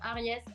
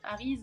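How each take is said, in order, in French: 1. Le nom se prononce à l'espagnole. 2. Le nom ne se prononce pas à l'espagnole. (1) "je le dis à la, à la espagnole" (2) "ça peut aussi se dire"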